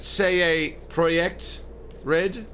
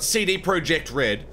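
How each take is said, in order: First: The letters C D use Polish letter names. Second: The letters C D use English letter names. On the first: The speaker calls it right. "Isn't it say a Projekt Red? Because they're Polish" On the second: The speaker calls it wrong. "It's not CD Projekt Red"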